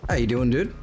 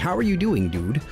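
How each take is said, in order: First: The words are slurred together. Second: The words are crisply and carefully enunciated.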